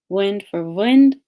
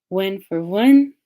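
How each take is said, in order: No difference in how they are said.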